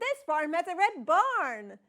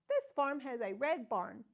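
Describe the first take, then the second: First: It is said as an excited exclamation. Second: It is said as a question, rising.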